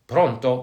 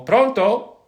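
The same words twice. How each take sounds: First: Said in the usual way. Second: High, loud phone greeting; calling pronto into a phone. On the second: Shown as a demonstration. Demonstrating how Italians answer the phone, a loud high pronto. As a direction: call it out like picking up a ringing phone. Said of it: "That's when you answer a phone".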